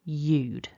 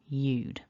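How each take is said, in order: First: It is said as one short syllable. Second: The same.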